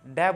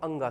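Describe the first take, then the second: First: The letter is pronounced like 'dai'. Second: The letter is pronounced like 'anga'. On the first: The speaker calls it wrong. "बहुत सारे student इस शब्द इस वर्ण को डै बोलते हैं, जो कि एक गलत है।" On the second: The speaker calls it right. "इसका उच्चारण करते हैं हम अंगा से।"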